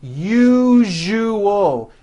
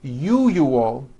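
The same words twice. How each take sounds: First: "Usual" said as yoo-zhoo-al, with a voiced zh in the middle; the right version for contrast; correct usual. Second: "usual" said yoo-yoo-al, with a y sound and no zh; the mistake learners make; mispronouncing for contrast; wrong usual. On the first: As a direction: blend it into one word. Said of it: "Now put it together". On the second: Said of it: "pronounces the word usual as". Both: Shown as a demonstration.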